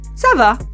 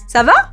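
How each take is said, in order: First: It is said with statement intonation. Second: It is said with question intonation. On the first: Answering that one is doing fine. "to answer that question" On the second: Asking how someone is doing. "to ask how someone is doing"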